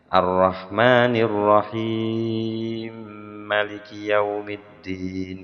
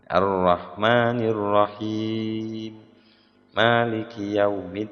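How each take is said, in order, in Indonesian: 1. Frasa-frasa itu disambung tanpa jeda. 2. Frasa-frasa itu dipisahkan oleh jeda. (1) "meskipun boleh kayak Imam Hamzah" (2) "yang lebih bagus berhenti satu-satu"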